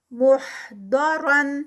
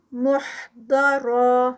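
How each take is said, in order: First: محضرن drawn out with a heavy ض; recited continuous form. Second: محضرا ending in a heavy را stretched two counts; recited stop form. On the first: Teacher to students, reciting continuously. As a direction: chant محضرن slowly. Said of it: "Quran recitation demo". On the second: Teacher showing the stop with a stretch. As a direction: stop at محضرا and hold the final vowel. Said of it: "را اینڈ پہ بھی heavy اور ٹو counts کا stretch". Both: Shown as a demonstration.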